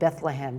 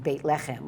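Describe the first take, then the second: First: The name is said with an English 'th' sound. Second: The name is said with a plain 't' sound. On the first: "somehow when it was anglicized" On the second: "There is no T H"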